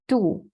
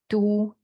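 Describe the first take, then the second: First: It is said in the fourth tone. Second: It is said in the first tone. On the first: It means belly. "the last one is belly" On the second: It means city. "from the left is the first tone"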